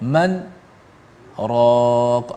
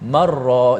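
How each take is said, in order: First: There is a brief pause between the two words. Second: The two words are joined without any pause.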